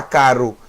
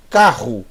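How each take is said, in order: First: "caro" with one light tongue-tap R; tapped R. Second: "Carro" with a throaty RR in the middle; guttural double R. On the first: Teacher shows what nobody says for car, tapped R in "caro". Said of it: "Ninguém fala caro". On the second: Teacher's infallible example for Het, guttural RR in "Carro". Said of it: "todo mundo fala carro". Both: Shown as a demonstration.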